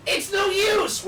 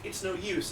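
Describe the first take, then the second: First: Over-the-top yell of "no use"; "It's no use!" yelled much higher and louder; bad acting. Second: Said in the usual way. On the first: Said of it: "So I delivered it like". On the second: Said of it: "the line was".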